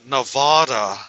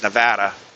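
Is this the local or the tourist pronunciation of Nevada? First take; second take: tourist; local. First: It is the tourists' snobby-sounding pronunciation. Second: It is the locals' everyday pronunciation. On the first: The speaker is an outsider trying to sound affluent. The speaker calls it wrong. "a lot of people that want to pronounce it as Nevada. That just sounds really stupid to me" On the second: The speaker is a local resident. The speaker calls it right. "All the locals pronounced it as"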